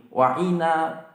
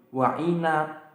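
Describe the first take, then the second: Both takes have the same delivery.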